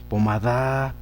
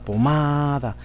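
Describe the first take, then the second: First: The stress is on the last syllable. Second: The stress is on the second syllable. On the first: The speaker calls it wrong. "Si la llevaran la da" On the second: The speaker calls it right. "Si la llevaran la ma"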